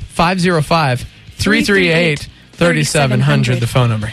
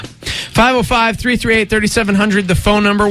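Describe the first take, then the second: First: The number is said slowly. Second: The number is said quickly.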